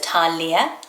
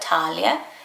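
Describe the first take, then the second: First: The name is said with three syllables. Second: The name is said with two syllables.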